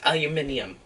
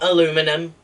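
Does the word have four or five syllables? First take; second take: five; four. First: The word is said with five syllables. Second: The word is said with four syllables. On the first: The speaker calls it right. "it's aluminium. Get right" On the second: The speaker calls it wrong. "It's not aluminum"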